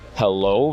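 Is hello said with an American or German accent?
American. Hello is said with a clearly enunciated American accent. The speaker does not speak German.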